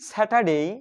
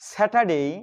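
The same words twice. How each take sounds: No difference in how they are said.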